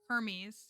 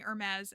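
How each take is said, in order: First: It is pronounced like the Greek god's name. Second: It is pronounced like the fashion brand name. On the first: The intended name of the mythological figure. The speaker calls it right. "Hermes from Greek mythology" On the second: The commenter's version, which names the luxury brand. The speaker calls it wrong. "stylizing the name like Hermes, the brand"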